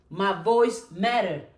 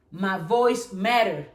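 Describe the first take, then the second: No difference in how they are said.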